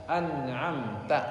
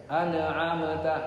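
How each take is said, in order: Both takes have the same delivery.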